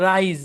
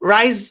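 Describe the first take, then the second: First: The word ends with a buzzing z sound. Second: The word ends with a hissing s sound. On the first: It means to get up. The speaker calls it right. "এটার উচ্চারণ হচ্ছে রাইজ" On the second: It sounds like the word for cooked grain. The speaker calls it wrong. "রাইস বললে মানুষ বুঝবে ভাত বুঝাচ্ছেন"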